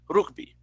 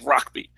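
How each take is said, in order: First: The word is said with Spanish pronunciation. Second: The word is said with English pronunciation. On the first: This is how most Spanish speakers say it. The speaker calls it right. "I as a Dominican would say rugby. That's my pronunciation" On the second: This is how the word was borrowed from the British. The speaker calls it wrong. "their way of pronouncing the word rugby is with an English accent"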